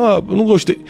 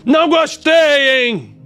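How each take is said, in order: First: It is said in a calm, mature tone. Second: It is said in an imposing, aggressive tone.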